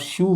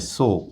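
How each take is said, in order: First: It sounds like 'shoo'. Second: It sounds like 'so'. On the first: The speaker calls it wrong. "इसको यदि आप शू बोलते हैं तो ये गलत है" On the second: The speaker calls it right. "इसका जो सही उच्चारण है वो सो है"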